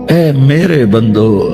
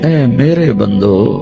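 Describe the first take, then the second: The two takes are said the same way.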